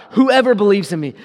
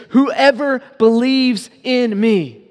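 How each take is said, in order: First: Said in the usual way. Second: "Whoever believes in me" drawn out slowly, "Whoever" leaned on; slow right down and press "Whoever"; emphatic verse. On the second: Shown as a demonstration. Preacher landing the third repetition, slow and emphatic. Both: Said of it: "He says it three times".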